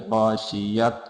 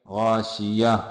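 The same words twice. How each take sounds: First: गाशियत said with a final t sound; wrong t ending on गाशियत. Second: Pausal ha ending on गाशिया; correct pausal form. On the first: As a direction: pronounce गाशियत with a clear t at the end. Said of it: "नहीं पढ़ेंगे". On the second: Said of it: "जो गोलता है". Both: Shown as a demonstration.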